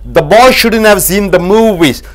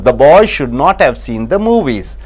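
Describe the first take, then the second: First: Should not is shortened to shouldn't. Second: Should not is said as two full words.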